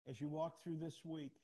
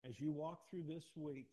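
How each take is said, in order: First: Raised and insistent; emphatic. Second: Slow it right down, loud, every word weighed; slow, stressed repeat. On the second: Pastor repeats the charge to the congregation slowly and loudly. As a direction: lean into each word of as you walk through this week. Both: Shown as a demonstration. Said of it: "repeated for emphasis".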